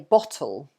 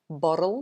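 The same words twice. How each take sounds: First: The middle T is pronounced clearly and strongly. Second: The middle T is softened and rolled, not crisp. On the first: "in England, you would say bottle" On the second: "in American, they tend to say bottle, bottle. So they kind of roll"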